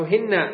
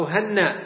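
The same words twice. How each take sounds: First: هن said "hinna", with kasra and doubled nun; i-vowel, doubled n. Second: هن said "hanna", with fatha and doubled nun; a-vowel, doubled n. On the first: Teacher showing the kasra form, هن pronounced "hinna". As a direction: make the first vowel of هن an "i", hold the n. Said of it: "بكسرها". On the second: Teacher showing the fatha form, هن pronounced "hanna". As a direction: open the first vowel of هن to "a", hold the n. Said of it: "فتح الهاء وتشديد النون". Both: Shown as a demonstration.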